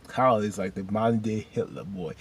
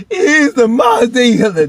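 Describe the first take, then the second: First: Said in the usual way. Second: Very high, very loud yell; sudden over-the-top wailing shout; exclaimed outburst. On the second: Real, not acted. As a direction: shout it out in comic outrage. Same comparison repeated as an outburst.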